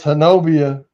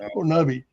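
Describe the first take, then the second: First: The name ends with an extra 'ah' syllable. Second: The name ends on an 'ee' sound. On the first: This is how most people say the name. "People say it's Honobia" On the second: "the Indian pronunciation is Honobi"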